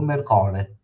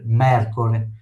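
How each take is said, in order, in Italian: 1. L'accento non è sulla prima sillaba. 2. L'accento è sulla prima sillaba. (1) "se no se leseria, se non l'accentavo" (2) "ho accentato la prima E perché casca là"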